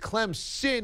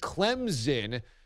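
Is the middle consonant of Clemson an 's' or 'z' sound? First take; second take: s; z. First: The middle consonant is a hissing s sound. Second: The middle consonant is a buzzing z sound. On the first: The speaker calls it right. "it is Clemson with an S" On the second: The speaker calls it wrong. "people use it as a Z"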